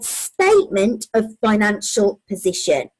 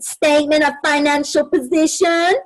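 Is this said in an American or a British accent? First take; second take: British; American. First: It is said in the speaker's usual British accent. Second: It is said in an imitated American accent.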